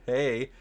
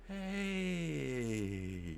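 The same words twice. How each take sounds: First: The word is said at normal speed. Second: The word is drawn out very slowly. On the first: "I will talk in a, at a normal speed" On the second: "the sloth impression"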